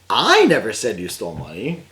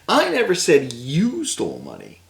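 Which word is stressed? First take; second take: I; you. First: The word I carries the stress. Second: The word you carries the stress. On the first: Someone else said it. "That guy did" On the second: Someone else stole the money. "That guy stole money"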